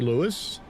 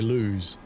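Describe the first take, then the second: First: The name is said the southern way. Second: The name is said the northern way. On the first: "Southerners tend to say Lewis" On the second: "Northerners tend to say lose"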